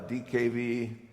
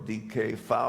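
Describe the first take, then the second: First: The letters are spoken the English way. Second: The letters are spoken the German way.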